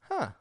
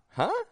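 First: The voice goes down at the end. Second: The voice goes up at the end. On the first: The speaker is thinking about a new idea. "I haven't thought about it that way" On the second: The speaker is asking someone to repeat. "It's just H-U-H with the voice going up"

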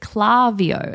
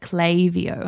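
First: The first syllable has a plain 'ah' vowel. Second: The first syllable has an 'ay' vowel. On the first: The speaker calls it wrong. "I honestly thought it was Klaviyo because there's no Y after the A" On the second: The speaker calls it right. "no, it's Klaviyo"

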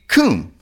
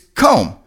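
First: The vowel is a long 'oo' sound. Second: The vowel is a long 'oh' sound. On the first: The speaker calls it wrong. "you would think C-O-M-B would be comb" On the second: The speaker calls it right. "but no, it's comb"

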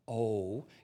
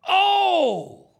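First: It is said flatly, without energy. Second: It is said robustly, full of energy.

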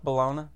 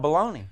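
First: The word is said in a careful, cleaned-up pronunciation. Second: The word is said in a casual, emphatic pronunciation. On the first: It is the proper form of the word. "I try to clean up my pronunciation. I know it's bologna" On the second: It is used loosely for emphasis. "sometimes you use artistic license for emphasis. Baloney sounds better"

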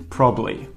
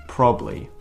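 No difference in how they are said.

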